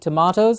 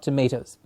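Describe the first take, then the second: First: It is said in a standard British way. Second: It is said in an American-influenced way. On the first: The speaker calls it right. "in standard English, we will carry on saying tomatoes" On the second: The speaker calls it wrong. "not tomatoes. Tomatoes are is what we've got the influence from America"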